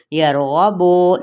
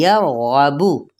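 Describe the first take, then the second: First: यरगबु with the last vowel said as a long o, like "yargabo"; यरगबु ending in a long o, not a rounded short u; wrong majhool vowel. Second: यरगबु with a short rounded u at the end, slow and careful; slow Quranic यरगबु with a clean short u; correct short u. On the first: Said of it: "लेकिन मजहूल नहीं पढ़ना". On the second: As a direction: recite यरगबु properly, lips rounded on the final u. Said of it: "यरगबु नहीं". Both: Shown as a demonstration.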